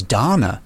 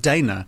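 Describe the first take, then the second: First: DANA said as DAH-na; corrected English pronunciation. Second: DANA said as DAY-na; audiobook pronunciation. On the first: Author reporting the English pronunciation, DANA pronounced DAH-na. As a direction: say Dana with a long "ah". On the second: Author giving the character's audiobook name, DANA pronounced DAY-na. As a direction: say Dana with a long "ay". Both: Shown as a demonstration. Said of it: "the English pronunciation".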